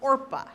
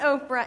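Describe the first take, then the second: First: The name is said with the r sound first. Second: The name is said with the p sound first. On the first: The speaker calls it right. "it's Orpah" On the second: The speaker calls it wrong. "It's not Oprah"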